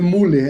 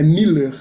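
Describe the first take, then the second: First: The first vowel sounds like 'oo'. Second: The first vowel sounds like 'ee'. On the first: The speaker calls it wrong. "não é Muller" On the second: The speaker calls it right. "quando tem o U, você faz um som de I"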